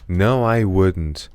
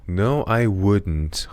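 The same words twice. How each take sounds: First: "No, I wouldn't" very slowly, each stressed word weighted; deliberate slow repeat for students; slow sentence stress drill. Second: "No, I wouldn't" stretched out, NO leaning heavily; even slower drill. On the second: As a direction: drag every word for learners. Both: Shown as a demonstration.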